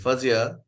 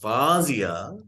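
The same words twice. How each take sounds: First: The first vowel is not an open 'ah'. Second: The first vowel is an open 'ah'. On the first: "then it's not there" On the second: "then it is there"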